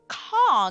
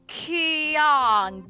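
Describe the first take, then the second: First: The K is made at the back of the mouth. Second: The K is made at the front of the mouth. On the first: "So that K is now in the back of your mouth" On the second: "as a frontal K, like Kyong, you you'll get a very strange sound"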